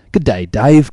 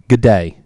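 First: A bad mock Australian "Good day, Dave" with a rising end; hammed-up Aussie greeting, badly done; podcast host reading an Australian listener's email in a poor Australian accent; horrible Australian accent. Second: Said in the usual way. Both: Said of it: "that's a horrible accent".

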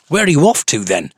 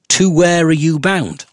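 First: Said in the usual way. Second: Mocking high, slow posh lilt; sing-song posh accent. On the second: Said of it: "a weird sing-song posh accent".

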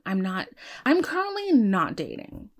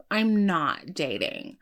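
First: Said in the usual way. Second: I'm not dating, said slowly with weight on each word; slow it down and land every word of I'm not dating firmly; slow firm restatement. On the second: Real, not acted.

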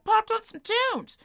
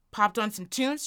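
First: High, drawn-out, gleeful delivery; playful high repeat. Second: Said in the usual way. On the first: Retold or imitated. Storyteller reliving a short drive with music, playfully high. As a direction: stretch it out way up high.

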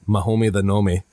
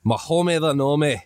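First: Said in the usual way. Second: Higher-pitched Scottish gnome voice; Mahomey the Nome. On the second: Shown as a demonstration. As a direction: play a little Scottish gnome. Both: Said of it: "He's a Scottish little deep gnome".

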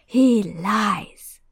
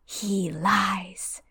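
First: The same words pushed out louder and fuller; the hidden voice pressing its claim; louder insistent repeat. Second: Eerie unvoiced whisper; hissing whisper of a hidden master. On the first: Acted. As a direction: raise it, insisting. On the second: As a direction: breathe it like a ghostly voice. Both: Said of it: "the high voice speaks again".

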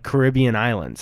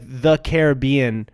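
First: "Caribbean" as kuh-RIB-ee-un; second-syllable stress. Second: "Caribbean" as kair-uh-BEE-un; third-syllable stress. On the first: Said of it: "you don't say, like". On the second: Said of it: "I feel like I say". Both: Shown as a demonstration.

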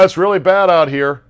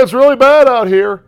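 First: Higher, louder "It's really bad out here."; fake-bracing storm cry; hammed-up reporter. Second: Hammed-up reporter. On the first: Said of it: "pretending to brace". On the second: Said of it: "hamming it up".

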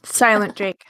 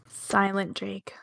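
First: Said in the usual way. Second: Softly and slowly drawn out; hushed and slow. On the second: Pretend. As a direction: say it hushed, like Jake must. Joke about Jake staying quiet.

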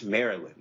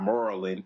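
First: "Maryland" said fully as "MARE-ee-land", with every syllable clear; careful pronunciation. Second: "Maryland" said as "MOR-uh-lin", with the middle syllable swallowed; local Maryland pronunciation. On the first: Showing listeners the right way to say the state's name. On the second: Mocking the local way while urging people to say it right. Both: Shown as a demonstration. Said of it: "Just say it right".

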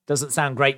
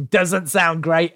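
First: Said in the usual way. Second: Laughing through the words, slower; amused repeat, chuckling; giggling at the line. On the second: Real, not acted.

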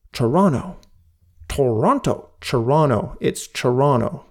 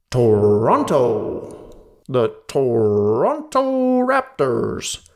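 First: "Toronto" said the Canadian way, "Tronno", second t dropped. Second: Slow American-style "Toronto", r sounded, second t dropped; American announcer accent. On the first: Shown as a demonstration. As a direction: show the local "Toronto", quick and clipped. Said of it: "Say it like it should be said". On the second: Retold or imitated. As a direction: mimic a US weatherman saying "the Toronto Raptors". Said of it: "He says it like".

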